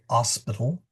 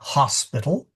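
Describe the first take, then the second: First: The starting h sound is dropped. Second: The starting h sound is clearly pronounced. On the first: The speaker calls it wrong. "We don't say hospital" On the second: The speaker calls it right. "we generally pronounce our leading H's. We say hospital"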